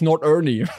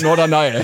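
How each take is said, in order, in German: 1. Der Name endet mit einem 'nee'-Laut. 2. Der Name endet mit einem 'nigh'-Laut. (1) "Meine lieblingsdeutsche Insel ist übrigens Nordernie" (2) "Statt Norderney"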